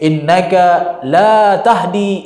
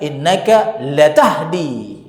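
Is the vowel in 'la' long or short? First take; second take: long; short. First: The vowel in 'la' is held long. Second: The vowel in 'la' is clipped short. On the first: You cannot guide. "Sesungguhnya engkau tidak bisa memberikan petunjuk" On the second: You truly do guide. "lam jadi lam mutaukid namanya"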